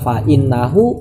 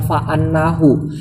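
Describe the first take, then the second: First: The word starts with an 'i' vowel. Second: The word starts with an 'a' vowel. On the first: "hamzahnya inna boleh kasroh" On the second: "boleh juga fathah"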